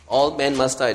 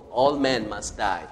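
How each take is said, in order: First: Louder repeat, "All" hit hard; emphatic repeat. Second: Slow, low, stress on "all"; solemn statement. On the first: Preacher repeating the truth louder for emphasis. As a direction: drive "All" home, full voice. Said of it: "That's the first truth". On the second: Preacher stating the first truth slowly and low. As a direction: press "all" down, slow and weighty. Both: Shown as a demonstration.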